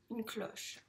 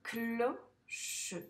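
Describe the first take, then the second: First: Said in the usual way. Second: "Cloche" as clo, pause, che; syllable-by-syllable reading. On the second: Shown as a demonstration. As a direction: read "Cloche" slowly in two separate syllables. (« Cloche » lu en deux syllabes séparées) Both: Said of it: "on le lit ensemble".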